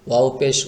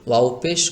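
The two takes are said the same way.

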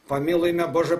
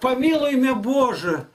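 First: It is read in a flat, mechanical, droning way. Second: It is read with warm, expressive feeling. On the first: The reader shows no feeling for the prayer. The speaker calls it wrong. "Он как на подъеме идет шатунами, трактор работает" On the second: The reader feels the prayer deeply. The speaker calls it right. "А если сказать так"

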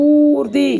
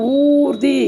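Both takes have the same delivery.

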